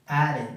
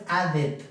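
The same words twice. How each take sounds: First: "added" ending in a short "id". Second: "added" mispronounced with a Spanish e, "ad-et"; a full e in the last syllable of "added"; wrong Spanish E. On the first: Teacher gives the correct form, "added" with -id ending. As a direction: say "added" as ad-id, falling. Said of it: "después la pronunciación id". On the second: Teacher shows the mistake to avoid, "added" as "ad-et". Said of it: "No es added". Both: Shown as a demonstration.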